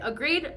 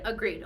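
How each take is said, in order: First: "Agreed?" asked with a rising question tune; asking agreement. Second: "Agreed." settled with a falling, final tune; confirming agreement. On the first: To boyfriend, seeking his agreement: "Agreed?" rising like a question. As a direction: put "Agreed?" to him as a question, voice lifting at the end. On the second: Boyfriend confirming the deal: "Agreed." falling and final. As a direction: answer "Agreed." flatly, voice dropping to close it. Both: Retold or imitated.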